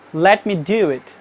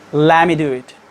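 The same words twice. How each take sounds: First: The t in let is pronounced clearly. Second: The t is dropped, let me sounds like lemmy. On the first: "when a non-native speaker pronounce a sentence by using let me, they say" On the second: "But the American people pronounce it"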